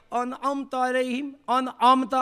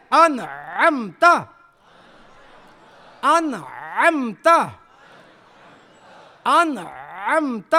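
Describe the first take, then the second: First: انعمت with hamza in place of ain; easy plain vowels in انعمت, no throat squeeze; careless misreading. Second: انعمت very slow, squeezing the throat on ع; correct throat ain. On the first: Teacher mimicking a careless reader, plain a in انعمت. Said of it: "آرام سے پڑھ لیا". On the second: Teacher drilling students, throaty drawn-out ain in انعمت. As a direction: chant انعمت with a long swooping ain. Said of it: "ام میں عین ہے". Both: Shown as a demonstration.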